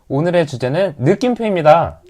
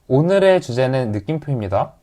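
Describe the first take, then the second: First: It sounds warm, friendly and glad. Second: It sounds flat and matter-of-fact.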